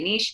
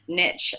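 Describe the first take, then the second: First: It is said the British way, like 'neesh'. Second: It is said the American way, like 'nitch'.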